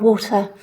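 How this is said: The T is a clean, crisp T. "in British English, we've got a T"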